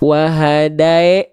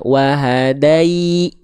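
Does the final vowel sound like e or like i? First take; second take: e; i. First: The final vowel sounds like e. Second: The final vowel sounds like i. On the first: The speaker calls it wrong. "Kalau tengah lidah kita gak naik" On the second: The speaker calls it right. "wahadai, naik tengah lidahnya"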